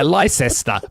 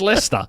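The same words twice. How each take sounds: First: The name is pronounced just as it is spelled. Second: The name is pronounced in the local reduced way. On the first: The speaker calls it wrong. "If you see Leicester spell out, it's like Leicester" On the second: The speaker calls it right. "but it's Leicester"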